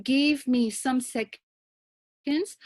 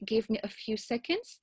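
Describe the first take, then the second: First: Quoted wrong phrasing. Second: Said in the usual way. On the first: Shown as a demonstration. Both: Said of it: "I would suggest that you rather say".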